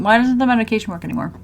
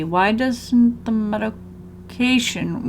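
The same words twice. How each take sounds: First: Rushed, quick read; fast reading. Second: Slow reading. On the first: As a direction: rattle the line off quickly. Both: Shown as a demonstration.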